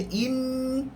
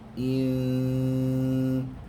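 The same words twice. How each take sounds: First: The n sound is pronounced clearly and distinctly. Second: The n sound is hidden in a soft nasal hum. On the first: The speaker calls it wrong. "itu sudah menjelaskan bunyi nun" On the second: The speaker calls it right. "menyembunyikan bunyi nun atau tanwin"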